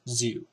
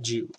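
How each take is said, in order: First: The word begins with a Z sound. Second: The word begins with a J sound. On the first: The speaker calls it right. "it's Zu" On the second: The speaker calls it wrong.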